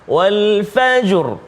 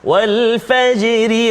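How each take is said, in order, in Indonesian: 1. Kata itu berhenti dan bunyi r-nya berat. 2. Kata itu terus bersambung dan bunyi r-nya ringan. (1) "bunyi tafkhim" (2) "dia jadi tarqiq, tipis"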